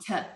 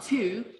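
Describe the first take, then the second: First: The word is said with a reduced vowel. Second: The word is said with a full vowel. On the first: The speaker calls it right. "it will become the or t" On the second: The speaker calls it wrong. "it's not two"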